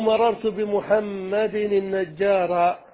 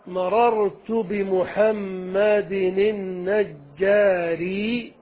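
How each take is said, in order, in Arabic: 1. تنتهي الكلمة الأخيرة بالحركة a. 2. تنتهي الكلمة الأخيرة بالحركة i. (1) "على القطع بالنصب" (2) "على الإتباع"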